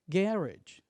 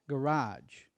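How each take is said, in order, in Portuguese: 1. Ela é dita com sotaque britânico. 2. Ela é dita com sotaque americano. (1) "British English" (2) "American English"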